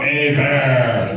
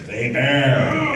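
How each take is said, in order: First: "Hey, Bear!" sung out, H silent, E like A; sung name pronunciation. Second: "Hey, Bear!" called out laughing, with silent H and E as A; name pronunciation. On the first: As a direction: sing "Hey, Bear" like a little tune. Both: Shown as a demonstration. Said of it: "The H is silent, the E's like an A".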